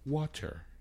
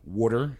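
First: It is said in a standard accent. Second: It is said in a Philadelphia accent.

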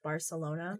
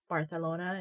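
First: The c is pronounced as an s sound. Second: The c is pronounced as a th sound. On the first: "instead of" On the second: "It kind of reminds me of like the Spanish lisp"

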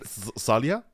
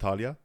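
First: The name begins with an 's' sound. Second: The name begins with a 'th' sound.

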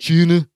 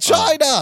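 First: It is said in an imitated, curled-mouth voice. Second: It is said in the speaker's normal voice.

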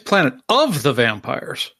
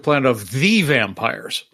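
First: The stress is on the word of. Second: The stress is on the word the.

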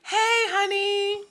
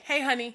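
First: It is said in a high girlish voice. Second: It is said in a plain normal voice.

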